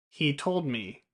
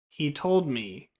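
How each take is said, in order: First: 'He' and 'me' have a long ee vowel. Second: The same.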